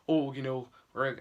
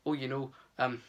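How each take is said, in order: First: Put-on quick, light Scottish accent on "Oh, you know"; a brief Scottish lilt on "Oh" for Lenny; Lenny's words in a passing Scottish accent. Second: Said in the usual way. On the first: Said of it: "that's the accent I just did there". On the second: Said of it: "I mean, he's not Scottish".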